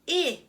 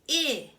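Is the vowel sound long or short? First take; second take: short; short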